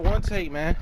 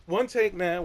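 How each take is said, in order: First: "one" hit first, ending on a lift; stress on one. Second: Soft, with the weight on "take"; stress on take. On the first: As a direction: punch "one", let "man" rise. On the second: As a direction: lean quietly into "take", drawn out. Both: Shown as a demonstration.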